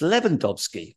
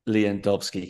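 First: The name begins with a 'Lev' sound. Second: The name begins with a 'Lou' sound. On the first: The speaker calls it right. "It's Lewandowski" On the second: The speaker calls it wrong. "We can't be calling him Lewandowski"

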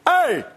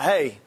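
First: It is said loudly in a commanding dad voice. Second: It is said at a plain, normal volume.

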